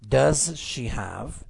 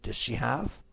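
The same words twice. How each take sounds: First: The words are said separately. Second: The words are blended together.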